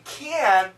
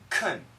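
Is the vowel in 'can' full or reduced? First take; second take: full; reduced. First: The vowel is a full, clear 'a'. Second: The vowel is a weak, reduced 'uh'. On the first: "when we say can" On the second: "it's actually more of a kun"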